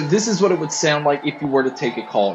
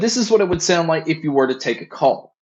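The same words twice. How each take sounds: First: The voice is heard over background crowd noise. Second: The voice is heard without background crowd noise. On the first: "here's a mic test with a crowd noise being played" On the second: "here is a mic test using the Earphone Free Pro"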